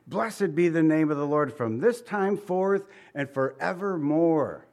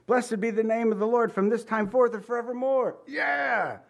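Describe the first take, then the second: First: Said in the usual way. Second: High, excited cheering read of the verse; excited fan cheering at a touchdown; football cheer. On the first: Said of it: "Today you might watch the football game". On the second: Shown as a demonstration. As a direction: shout it like your team just scored. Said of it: "you're gonna go".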